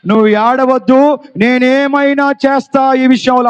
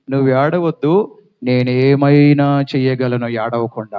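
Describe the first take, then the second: First: Higher and louder, firm promise; bold Jesus. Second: Gentle Jesus. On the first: Preacher repeating Jesus's promise to congregation, forceful. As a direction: proclaim it to the whole church. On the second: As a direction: hush her tears gently like a shepherd. Jesus speaks to the widow. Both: Acted.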